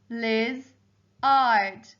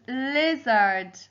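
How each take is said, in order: First: "Liz-ard" with a clear gap after Liz; split into syllables. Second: Said in the usual way. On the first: Shown as a demonstration. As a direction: break "Liz-ard" into two beats. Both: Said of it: "Second syllable was".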